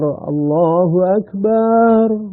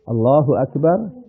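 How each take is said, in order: First: The vowel after the b is drawn out long. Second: The vowel after the b is kept short. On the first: The speaker calls it wrong. "baknya dibaca panjang" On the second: The speaker calls it right. "jika akbar itu dibaca pendek"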